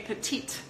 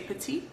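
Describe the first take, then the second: First: The final T sound is clearly pronounced. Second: The word ends without a T sound. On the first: This is the English way of saying it. "in English are pronounced with a T at the end. You say petite" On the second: This is the French way of saying it. "in French you would say petit"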